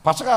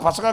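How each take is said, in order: Both takes have the same delivery.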